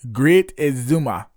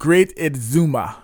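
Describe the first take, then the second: First: It is said in a Caribbean island accent. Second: It is said in a plain everyday accent.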